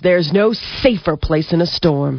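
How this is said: It is said with enthusiasm, rising on safer.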